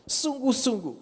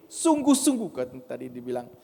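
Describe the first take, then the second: First: "Sungguh-sungguh" pitched high and falling; stress on Sungguh-sungguh. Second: Said in the usual way. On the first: Shown as a demonstration. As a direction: lift "Sungguh-sungguh" as the key word. (tekanan tinggi pada "Sungguh-sungguh")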